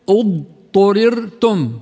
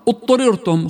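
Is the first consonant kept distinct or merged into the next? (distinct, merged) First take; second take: distinct; merged. First: The ḍād is kept distinct from the following sound. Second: The ḍād merges into the following sound. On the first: The speaker calls it right. "ما بصير تندغم الضاد مع التاء" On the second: The speaker calls it wrong. "فيقولون خطأ"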